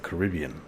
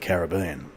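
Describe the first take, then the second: First: It is said the way other regions say it. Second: It is said the usual Australian way. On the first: This is how people elsewhere say it. "other parts of the world it's the Caribbean" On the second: This is how people in Australia say it. "Here in Australia we call it the Caribbean"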